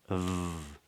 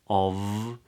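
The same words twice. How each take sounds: First: It has a weak schwa vowel, barely voiced. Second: It has a full vowel and ends in V. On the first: The speaker calls it right. "can be pronounced as a schwa" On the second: The speaker calls it wrong. "not of with a V"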